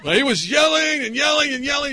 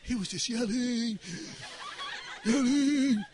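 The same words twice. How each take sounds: First: Raised, higher-pitched emphatic telling; back to yelling. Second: Hushed, comically gentle telling; not so loud. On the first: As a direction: belt out each yelling after the hushed try. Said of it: "that doesn't sound right". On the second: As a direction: say yelling as softly as possible. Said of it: "Don't talk so loud". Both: Shown as a demonstration.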